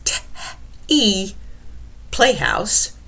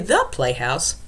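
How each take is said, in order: First: The first word begins with a plain t sound. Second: The first word begins with a th sound. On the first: The speaker calls it wrong. "We don't pronounce this word T-E" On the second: The speaker calls it right. "if you say the playhouse, eh, then I know"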